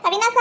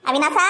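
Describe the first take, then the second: First: Higher call across the house. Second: Said in the usual way. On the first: Acted. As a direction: call his name up high, looking for him. Calling out for Avinash. (ಎತ್ತರದ ದನಿಯಲ್ಲಿ ಕೂಗಿ ಕರೆಯುವುದು)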